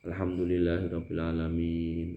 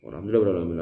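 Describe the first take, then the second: First: It is recited slowly and calmly. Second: It is recited quickly and rushed.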